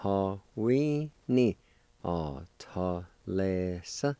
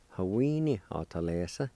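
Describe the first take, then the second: First: Measured teaching pronunciation; syllable-by-syllable demonstration. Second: Said in the usual way. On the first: Shown as a demonstration. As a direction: separate syllables with gaps, last one lifted. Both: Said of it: "And together".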